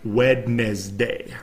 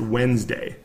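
First: It is said letter by letter, as spelled. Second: It is said in the usual shortened way. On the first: "it's spelled as if it were like Wednesday" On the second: "we just pronounce it Wednesday"

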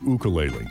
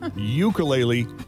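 First: It is said the local Hawaiian way. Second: It is said the non-local, outsider way. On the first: The speaker is from the islands. The speaker calls it right. "That's the correct pronunciation" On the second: The speaker is not from the islands. The speaker calls it wrong. "you ain't local, brudda"

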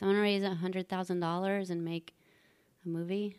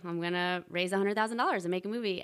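First: The statement sounds hesitant and unconvinced. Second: The statement sounds firm and convinced. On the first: The speaker does not believe it. The speaker calls it wrong. "And I said it just like this" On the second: The speaker believes it. The speaker calls it right. "actually believe the words that are coming out of your mouth"

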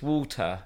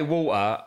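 First: It is said in a posh English accent. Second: It is said in a non-posh accent. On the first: This is how the speaker's children say it. "they'll be like, no, daddy, it's water" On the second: This is how the speaker himself says it. "I say water"

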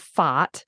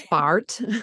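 First: The word is said with an Australian accent. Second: The word is said with an American accent. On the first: "being Australian, ... they laugh at the way I say this word" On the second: "I think you guys say fart"

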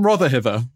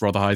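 First: The name ends with an extra 'er' sound. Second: The name ends without an extra 'er' sound. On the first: "consistently pronounces it Rotherhither" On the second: "I think that's Rotherhithe is the way to pronounce it"

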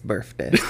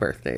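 First: The word is said with an F sound. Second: The word is said with a TH sound. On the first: "Birth with an F" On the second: "It's not birthday"

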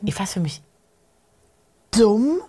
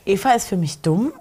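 First: It is said dramatically, with incredulity. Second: It is said plainly, without strong emotion. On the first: "also auch mit so einer Ungläubigkeit mit dabei" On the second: "wenn die nicht einfach nur sagt"

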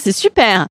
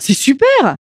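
First: The voice sounds flat and grudging. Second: The voice sounds warm and genuinely pleased. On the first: The friend is not really glad for you. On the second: The friend is truly glad for you.

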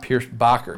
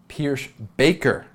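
First: The last part sounds like 'bocker'. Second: The last part sounds like 'baker'. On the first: The speaker calls it wrong. "It's not Pierce Bacher" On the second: The speaker calls it right. "the other pronunciation that I got straight from the source"

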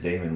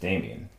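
First: The name ends in a short un sound. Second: The name ends in an added ee-en sound. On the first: The speaker calls it right. "say it the right way the first time, and that is Damon Lindelof" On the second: The speaker calls it wrong. "who I sometimes incorrectly pronounce as Damien"

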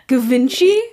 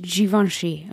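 First: The name sounds like Ga-vin-chi. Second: The name sounds like Zhee-von-shee. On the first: The speaker calls it wrong. "I got scolded for that one" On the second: The speaker calls it right. "They're like, it's Givenchy"

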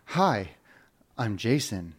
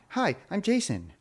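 First: It sounds serious and grown-up. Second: It sounds like a little kid.

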